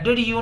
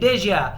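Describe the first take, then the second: First: Two separate words, with a clear 'you'. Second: Blended into one word, sounding like 'didja'. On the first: The speaker calls it wrong. "डिड यू नहीं" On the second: The speaker calls it right.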